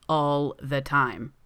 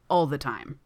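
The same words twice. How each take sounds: First: "All the time" drawn out slowly; teasing repeat. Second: Said in the usual way. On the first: A narrator's reading. Dennis insists over Gino's protest, slow teasing repeat on "All the time". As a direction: stretch each word of "All the time" for emphasis. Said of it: "Dennis repeats".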